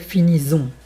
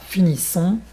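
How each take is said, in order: First: The consonant before -ons is a buzzing z. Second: The consonant before -ons is a hissing s. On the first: The speaker calls it wrong. "ça fait finissons, ça fait un, un Z" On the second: The speaker calls it right. "si on n'écrit pas finissons"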